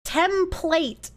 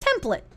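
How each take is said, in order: First: "Template" said with a full long "plate" ending; template, careful. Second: "Template" said higher, clipped to temp-luh; his quirky template. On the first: Streamer testing his pronunciation of "Template" against the usual way. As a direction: say "Template" as temp-LATE, both syllables clear. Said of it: "You like how I say template?". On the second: Streamer showing chat his odd way of saying "Template". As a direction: cut "Template" short, ending in a weak "luh". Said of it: "Template sounds wrong". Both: Shown as a demonstration.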